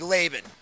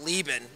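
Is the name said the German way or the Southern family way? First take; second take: German; Southern family. First: The name follows the original German pronunciation. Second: The name follows a clipped Southern family pronunciation. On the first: This is the original form of the name. The speaker calls it right. "it's a German name, would be" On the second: This is the family's everyday form of the name. The speaker calls it wrong. "my family pronounces it Lieben, ... chopped up ... way"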